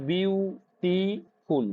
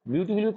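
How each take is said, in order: First: "বিউটিফুল" slowly broken as বিউ, টি, ফুল; syllable by syllable. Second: Said in the usual way. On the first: Shown as a demonstration. Teacher having students count syllables, "বিউটিফুল" slowly split in three. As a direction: stretch and separate each syllable of "বিউটিফুল". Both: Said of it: "কতগুলো syllable দেখো তো".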